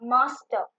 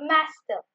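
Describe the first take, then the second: First: It is said in a British accent. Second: It is said in an American accent. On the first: "British ஆக்சன்ட்ல வந்துட்டு மாஸ்டர்" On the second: "American ஆக்சன்ட்ல வந்துட்டு அவங்க வந்து மாஸ்டர்"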